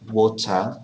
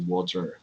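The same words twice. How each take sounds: First: It has a British accent with no R sound. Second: It has an American accent with an R sound.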